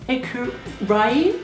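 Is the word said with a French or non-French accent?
non-French. It is said with a non-French, learner-like pronunciation. The speaker calls it wrong. "What did you say? Écureuil? Right? No, no, it's not like that"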